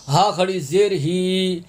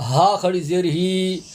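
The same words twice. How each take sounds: The two takes are said the same way.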